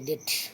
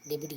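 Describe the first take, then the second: First: The word is said without a b sound. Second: The word is said with a b sound. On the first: The speaker calls it right. "డెట్ అని ఇచ్చిండు" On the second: The speaker calls it wrong. "డెబిట్ కాదు"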